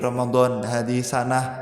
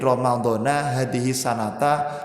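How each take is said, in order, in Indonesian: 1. Kata ini tidak diakhiri vokal apa pun. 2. Kata ini diakhiri vokal a pendek. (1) "cara pengin aman wis disukun ngono wae" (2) "Dzaraf itu sampai hari kiamat wajib dibaca nah nasab"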